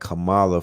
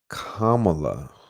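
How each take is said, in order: First: The name does not start like 'comma'. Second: The name starts like the word 'comma'. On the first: The speaker calls it wrong. "I've been saying Kamala for the whole time" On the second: The speaker calls it right. "like comma"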